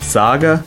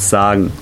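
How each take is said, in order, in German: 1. Das Wort endet auf einen a-Laut. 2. Das Wort endet auf einen en-Laut. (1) "die Verbendungen statt en wie a ausgesprochen" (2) "statt en wie a ausgesprochen"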